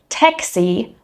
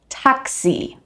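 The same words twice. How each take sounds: First: The a vowel is flattened, not clear and open. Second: The a vowel is a clear, open a. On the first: The speaker calls it wrong. "instead of" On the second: The speaker calls it right. "we say"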